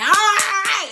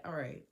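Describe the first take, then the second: First: Loud, high mock yell; exasperated, high-pitched courtroom shout; imitated judge's shout. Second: Low, very soft reply; small, deflated retold answer; subdued acceptance. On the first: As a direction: bellow over the other person. Judge yelling over her, retold. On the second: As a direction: give in quietly, dropping right down. Her subdued answer to the shout.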